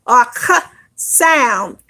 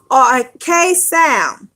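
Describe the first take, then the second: First: K said as a short "kuh" sound. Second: K said as the letter name "kay". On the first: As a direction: sound out K as "kuh", not the letter name. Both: Shown as a demonstration.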